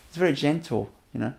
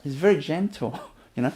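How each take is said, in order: Both takes have the same delivery.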